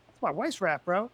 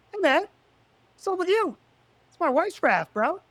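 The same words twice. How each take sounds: First: Said in the usual way. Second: High, loud calling out across the pool; retold confrontation. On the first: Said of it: "and I was like". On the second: Retelling confronting the raft thief, a loud high call-out. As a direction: snap it at him as if catching a thief.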